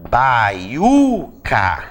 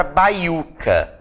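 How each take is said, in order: First: Baiuca slowly as bai-U-ca, the U stretched; drawn-out syllables. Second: Said in the usual way. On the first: Shown as a demonstration. Teacher showing students how baiuca divides, syllable by syllable. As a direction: hold the stressed U in "baiuca". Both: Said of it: "A sílaba tônica é o U".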